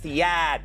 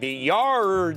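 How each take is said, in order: First: It is said in a Boston accent. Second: It is said without a Boston accent. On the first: The speaker calls it right. "it's the yad" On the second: The speaker calls it wrong. "I'm going, the yard, no yad"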